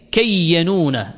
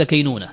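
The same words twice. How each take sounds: First: كينونة as kay-ya-nū-na, the ya doubled; full unlightened form, كينونة as kayyanūna. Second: كينونة as kay-nū-na, single y; lightened كينونة, kaynūna without doubling; lightened form. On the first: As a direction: say كينونة with a long held double y and an extra a. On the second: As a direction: say كينونة short, with no vowel after the y. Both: Shown as a demonstration. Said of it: "ثم خففت فقيل كينونة".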